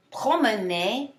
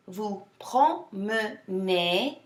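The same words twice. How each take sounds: First: Said in the usual way. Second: "Vous promenez" very slowly, syllable by syllable; broken down slower. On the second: Shown as a demonstration. Teacher for students repeating after her, slow syllable breakdown. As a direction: pull "promenez" apart into three slow syllables. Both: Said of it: "break it down slower".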